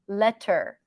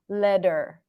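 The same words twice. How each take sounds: First: The middle consonant is a clear, crisp T. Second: The middle consonant is a soft, light D. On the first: "You can also pronounce it as a T" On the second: "you can also think of it as a light D"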